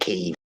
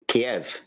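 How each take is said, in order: First: It is said the newer international way. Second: It is said the traditional English way. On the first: This is how news announcers now say it. "everyone's pronouncing it Kiev" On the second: This is how it used to be said at home. "because that's how we say it"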